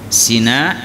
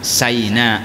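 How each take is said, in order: First: The first vowel sounds like 'ee'. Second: The first vowel sounds like 'eye'. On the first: "bisa dibaca Sina" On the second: "bisa dibaca Saina"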